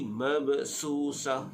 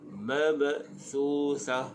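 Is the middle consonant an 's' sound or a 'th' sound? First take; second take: s; th. First: The middle consonant is a sharp 's' sound. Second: The middle consonant is a soft 'th' sound. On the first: The speaker calls it wrong. "jangan bunyi mabsusah, itu huruf sin" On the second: The speaker calls it right. "Ruksa tu jangan terlampau berangin"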